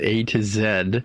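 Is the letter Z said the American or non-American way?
non-American. The final letter is said the non-American way. The speaker calls it wrong. "I said it wrong for the Americans"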